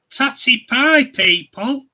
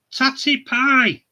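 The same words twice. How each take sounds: First: Big, much louder sign-off with a high rising pie; hammed-up farewell call; loud catchphrase. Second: Drawn-out, loud "Tatty pie" falling at the end; lingering hammed-up farewell; slow catchphrase. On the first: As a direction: shout the goodbye to the viewers. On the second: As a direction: savour it slowly as a final goodbye. Sign-off catchphrase repeated.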